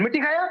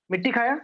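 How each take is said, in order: First: Insistent question. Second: Said in the usual way. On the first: Acted. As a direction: press him for the truth, sharper on "खाया". Mother presses son insistently.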